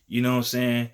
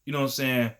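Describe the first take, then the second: No difference in how they are said.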